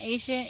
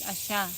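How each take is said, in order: First: The name starts with an 'eye' sound. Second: The name starts with an 'ah' sound. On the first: The speaker calls it wrong. "it's not Aisha" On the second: The speaker calls it right. "it's Asha"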